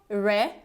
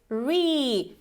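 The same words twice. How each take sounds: First: The vowel is short. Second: The vowel is a long E. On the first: The speaker calls it wrong. "it's not re" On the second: The speaker calls it right. "you actually have this long E"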